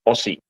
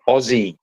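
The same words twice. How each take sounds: First: The middle consonant is a hissing s sound. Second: The middle consonant is a buzzing z sound. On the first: The speaker calls it wrong. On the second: The speaker calls it right. "change the S's to a Z"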